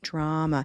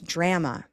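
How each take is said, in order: First: The stressed vowel sounds like the vowel in 'olive'. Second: The stressed vowel sounds like the vowel in 'cat'. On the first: The speaker calls it right. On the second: The speaker calls it wrong.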